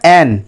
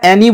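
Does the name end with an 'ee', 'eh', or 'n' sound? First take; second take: n; ee. First: The name ends on the 'n' sound. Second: The name ends in an added 'ee' vowel. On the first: The speaker calls it right. "আমি বারবার দেখবে বলছি ওটা অ্যান" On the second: The speaker calls it wrong. "অ্যানে বা অ্যানি বলবে না"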